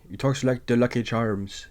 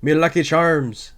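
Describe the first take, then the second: First: Mock Irish lilt, a touch quieter; imitating Welles' Irish brogue; Irish accent. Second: Higher, hammed-up Irish brogue; mock the Irish accent like a cereal mascot; exaggerated stage Irish. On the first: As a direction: put on a jokey Lucky Charms Irish voice. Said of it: "Michael O'Hara talks like this". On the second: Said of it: "Orson Welles' accent in this, the Irish".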